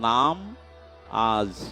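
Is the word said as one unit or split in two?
split. The word is split into two separate parts. Take the holy name today. "নামাজ শব্দের উচ্চারণ যদি করেন নাম আজ"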